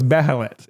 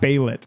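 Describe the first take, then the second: First: The middle 'he' syllable is clearly pronounced. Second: The middle 'he' syllable is dropped. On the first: The speaker calls it right. "So it's Behelit" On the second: The speaker calls it wrong. "It's not Beilit. That's just wrong"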